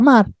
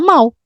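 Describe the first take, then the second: First: The word ends with an R-like sound. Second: The word ends with an L-like sound. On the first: The speaker calls it wrong. "não se fala mar" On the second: The speaker calls it right. "Mal se fala mal"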